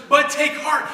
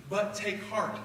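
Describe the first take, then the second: First: "but take heart" higher and louder with gusto; enthusiastic. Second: Said in the usual way. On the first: Shown as a demonstration. Jesus encouraging the crowd, loud and enthusiastic. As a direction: hit "but take heart" with energy and charisma. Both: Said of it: "he said it with enthusiasm".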